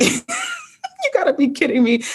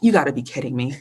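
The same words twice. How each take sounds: First: Higher, slow, drawn-out mock exasperation; exasperated disbelief. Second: Said in the usual way. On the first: Repeating it to the host, slow and exasperated. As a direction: stretch it out like you can't believe your luck. Retold frustration at no job offers.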